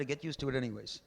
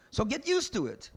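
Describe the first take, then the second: First: Said in the usual way. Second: "used" hit high and loud, falling hard on "So get used to it"; emphatic. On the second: Shown as a demonstration. Rabbi hammering the point to listeners, "used" hit hard. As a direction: bang out "used" in "So get used to it" like a command. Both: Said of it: "You know what get used to it means?".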